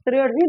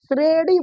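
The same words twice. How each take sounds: First: The middle consonant is the written letter sound. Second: The middle consonant is a flapped r sound. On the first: This is how the word is written. "उस श्रेणी नहीं बुलाएगा" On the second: This is how it is said in everyday speech. "श्रेणी बुलाएगा, डुपाई अड़"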